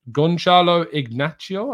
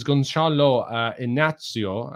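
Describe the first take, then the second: First: Gonçalo Ignacio said higher and louder, with a hard C; hard C pronunciation. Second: Hesitant try at Gonçalo, Inácio with no hard C; non-Portuguese attempt. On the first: Host corrects his own reading, Gonçalo Ignacio with a hard C. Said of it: "I think the C is pronounced hard". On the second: Host reads a viewer's question, tentative pronunciation of Gonçalo Inácio. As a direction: stumble through Gonçalo, uh, Inácio, unsure of the sounds. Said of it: "that's not Portuguese at all". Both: Shown as a demonstration.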